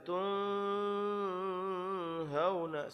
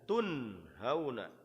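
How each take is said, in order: First: The n is muffled and nasal. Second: The n is pronounced clearly. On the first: The speaker calls it wrong. "Enggak boleh dibaca tun hauna, salah jadinya" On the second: The speaker calls it right. "tun itu jelas"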